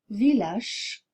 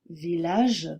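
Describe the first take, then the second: First: The final consonant is voiceless. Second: The final consonant is voiced. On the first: The speaker calls it wrong. "vous avez tendance à prononcer" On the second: The speaker calls it right. "c'est un son sonore ... et non pas"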